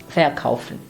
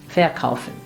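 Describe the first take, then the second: Both takes have the same delivery.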